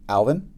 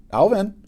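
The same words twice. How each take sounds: First: Said in the usual way. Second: Sharp high call across the classroom. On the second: A narrator's reading. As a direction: call his name loud and high. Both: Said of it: "a voice called".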